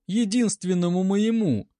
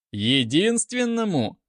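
First: High, pleading, stress on моему; plaintive. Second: «Единственному?» mocking, drawn, falling; deliberate irony. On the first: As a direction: cry out for her only one. Нина умоляет о поручике. (жалобно, с ударением на «моему») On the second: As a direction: echo her word with sneering irony. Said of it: "произнёс с нарочитой иронией". (с нарочитой иронией переспросить «Единственному?») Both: A narrator's reading.

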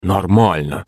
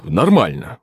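First: Understated mocking echo; quiet mimicking. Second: Said in the usual way. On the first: A narrator's reading. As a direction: parrot his word back under a veneer of calm. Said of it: "тихо передразнила его Анна".

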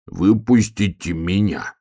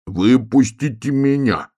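First: Slow, drawn-out plea; mildly plaintive bear cub; pleading. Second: Higher, drawn-out plea; plaintive bear cub calling to be let out; pleading. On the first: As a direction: ask to be let out, stretching the vowels. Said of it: "попросил медвежонок". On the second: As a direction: beg slowly with the voice raised. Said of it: "просил медвежонок". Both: A narrator's reading.

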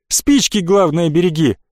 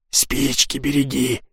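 First: Said in the usual way. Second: Тихо, медленно, передразнивая чужой наказ; насмешливо шепни, как эхо; передразнивая шёпотом. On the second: Retold or imitated. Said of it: "передразнил я шёпотом". (тихое насмешливое передразнивание шёпотом)

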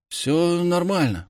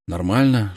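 First: Slow, faltering reply; hesitant. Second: Said in the usual way. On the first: A narrator's reading. Bullied boy tells the hero everything's fine, faltering. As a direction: stumble over it, unsure. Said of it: "проговорил, запинаясь". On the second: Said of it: "школа как школа".

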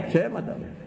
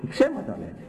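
First: «Ψέματα λένε» said much higher with a rising mocking lilt; high mocking repeat. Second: Said in the usual way. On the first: Shown as a demonstration. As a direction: toss «Ψέματα» up high, scoffing.

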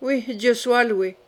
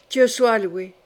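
First: Slow, dry echo of thanks; ironic. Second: Understated cry of thanks; pious exclamation. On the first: Charles echoes his mother's thanksgiving, slowly and ironically. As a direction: draw it out with understated irony. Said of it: "reprit ironiquement Charles". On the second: Catherine, relieved her son believes her, exclaims in feigned piety. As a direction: exclaim it with a show of faith. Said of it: "s'écria-t-elle, comme si elle eût cru en Dieu". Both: A narrator's reading.

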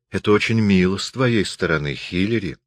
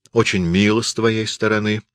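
First: Said in the usual way. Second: Dry. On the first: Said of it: "Сесилия взглянула на него". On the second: A narrator's reading. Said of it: "ответил Хиллери сухо".

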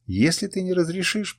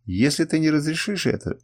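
First: Higher, mildly pleading voice; tearful. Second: Mildly stern, higher-pitched warning; harsh. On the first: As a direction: plead with a touch of tears. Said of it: "плакал Африс". (с лёгкой слезой, умоляюще) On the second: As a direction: issue it as a firm warning. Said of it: "жёстко сказал Камраз". (сдержанно, жёстко) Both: A narrator's reading.

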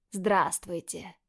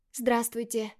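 First: Slow, careful greeting; greeting gently so as not to scare the boys; cautious. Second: Timid smile. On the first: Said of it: "С осторожностью, боясь спугнуть мальчиков". (осторожно, медленно, чтобы не спугнуть) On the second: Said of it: "С робкой улыбкой". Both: Acted.

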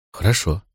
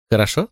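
First: Said in the usual way. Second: Хорошо? with a rising questioning lift; Хорошо? as a light question rising; asking question. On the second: Acted. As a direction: ask Хорошо? hopefully, voice going up at the end.

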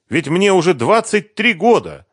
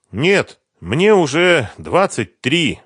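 First: Higher, louder, three stressed at the end; lightly lamenting young woman; Sveta's voice. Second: Slow, louder, higher sighing protest; young woman sighing over her age. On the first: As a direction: state it brightly. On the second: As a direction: sigh out the years slowly. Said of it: "вздохнула она". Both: A narrator's reading.

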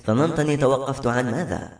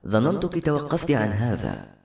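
First: Mildly irritated challenge; a touch of edgy annoyance; testy question. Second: Slow, mild reproach; understated, drawn-out blame; reproachful. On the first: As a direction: throw the question back testily. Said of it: "استدارت بعصبية وسألت". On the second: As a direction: chide slowly, without raising the voice. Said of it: "وقال يلومها". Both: A narrator's reading.

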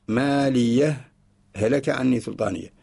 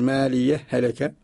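First: "ما لي" then a clear pause before "هلك"; pause before hlk. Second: Slow, with the ha of "ما لي" merged into the ha of "هلك"; merged reading. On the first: Teacher showing the second way, a brief stop before "هلك". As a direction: stop briefly after "ما لي" and start "هلك" fresh, no merging. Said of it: "ووجه ثان". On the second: Teacher showing the student the merged reading, slow and joined. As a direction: read "ما لي هلك" slowly as one joined phrase, the two ha sounds fused. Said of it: "نقول". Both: Shown as a demonstration.

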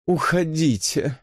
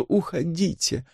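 First: Slow, languid «Уходите»; languid plea. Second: Slow, falling, softer «уходите»; languid plea. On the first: Elisa begs Susan to leave, languid. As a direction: plead «Уходите» lazily, drawn out. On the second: Elisa begs again, languid and fading. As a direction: sigh «уходите» away, drawn and fading. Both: A narrator's reading. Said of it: "томно взмолилась Элиса".

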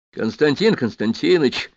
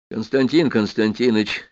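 First: Drawn-out, slightly raised call to get someone's attention. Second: Understated, effortful address in a usual pitch; forced hoarse croak. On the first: Acted. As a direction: call to him across the room, slowly. Герой окликает Чаянова. (протяжный оклик) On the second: A narrator's reading. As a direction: force the name out, only lightly croaked. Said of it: "прохрипел я". (негромко, через силу, с лёгкой хрипотцой)

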